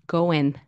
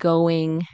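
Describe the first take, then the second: First: The word ends with an n sound. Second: The word ends with an ng sound. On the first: "you could say" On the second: "instead of saying"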